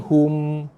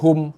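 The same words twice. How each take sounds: First: The final m is held with a nasal hum. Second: The final m is plain, without a hum. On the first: The speaker calls it right. "mim dan nun mati dia ada sifat ... dengung" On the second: The speaker calls it wrong. "bukannya hum"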